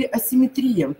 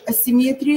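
First: Асимметрия stressed on «три»; асимметрия, stressed second to last. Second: Асимметрия stressed on «мет»; асимметрия, third syllable stressed. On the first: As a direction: hit the И before the final Я in асимметрия. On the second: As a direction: hit the Е in асимметрия. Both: Shown as a demonstration. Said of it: "Е или И".

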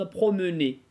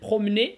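First: "promener" as pro-meu-nay, middle vowel voiced; sounded schwa. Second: "promener" as prom-nay, no middle vowel; dropped schwa. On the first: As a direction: keep the э inside "promener". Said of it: "можно". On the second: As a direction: swallow the э inside "promener". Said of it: "можно читать". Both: Shown as a demonstration.

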